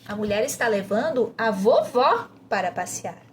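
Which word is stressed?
vovó. The emphasis falls on the word vovó. "você vai enfatizar vovó"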